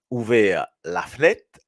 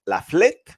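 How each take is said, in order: First: «fenêtre» with the middle E sounded, said slowly; full vowel in fenêtre. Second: «fenêtre» squeezed to «flette», pitch higher; clipped flette. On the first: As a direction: say «ouvert la fenêtre» with every syllable. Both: Shown as a demonstration. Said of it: "Est-ce qu'il y a, à votre avis".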